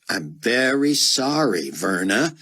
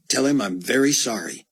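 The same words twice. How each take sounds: First: Slow, sarcastic apology. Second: Said in the usual way. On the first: Acted. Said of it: "Buck said with sarcasm". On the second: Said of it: "I'm afraid I'm gonna have to call him back".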